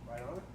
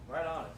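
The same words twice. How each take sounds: First: It rises at the end like a question. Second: It falls at the end like a statement.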